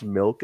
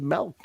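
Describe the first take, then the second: First: Said in the usual way. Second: Second "milk" as MELK. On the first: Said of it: "people who pronounce milk as milk". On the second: Retold or imitated. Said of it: "They pronounce it like M E L K".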